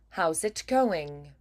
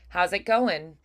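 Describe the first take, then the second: First: The final consonants are clear and crisp. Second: The final consonants are dropped. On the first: It sounds transatlantic. "we will still have nice, clean, clear final consonants" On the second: It sounds casual. "If it was more casual, it'd be more like"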